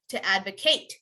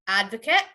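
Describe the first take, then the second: First: To advocate as AD-vuh-KATE; verb ending in ATE. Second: Advocate as AD-vuh-kit; noun ending on t. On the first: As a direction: sound the long A in advocate. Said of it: "you have to say ate". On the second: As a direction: keep the last vowel of Advocate short. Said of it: "if it's a noun". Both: Shown as a demonstration.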